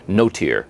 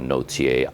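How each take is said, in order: First: The name has a simplified English pronunciation. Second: The name has a French pronunciation. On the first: This is how the couple says it now. "they simplified the pronunciation, and now they call themselves" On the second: This is the name's original pronunciation. "it's an old French name, so it actually would be like Notier"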